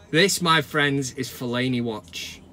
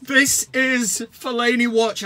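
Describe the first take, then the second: First: Dramatic segment announcement. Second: Slow, stretched-out grand announcement; segment title announcement. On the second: Host re-announcing the segment after the clip, slow and grand. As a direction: sell the title like a jingle. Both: Acted.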